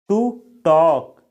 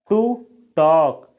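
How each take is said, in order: Both takes have the same delivery.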